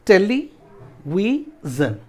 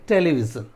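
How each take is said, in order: First: टेलीविजन in slow parts: टेली, वि, जन; syllable breakdown. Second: Said in the usual way. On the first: Shown as a demonstration. Teacher counting syllables for students, slow and separated. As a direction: pause between the parts of टेलीविजन. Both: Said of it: "इसको break कर देते हैं".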